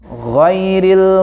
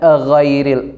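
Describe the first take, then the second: First: The word starts directly with the gh sound. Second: An extra a sound comes before the word. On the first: The speaker calls it right. "Jadi langsung ghairil" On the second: The speaker calls it wrong. "ada a-nya itu"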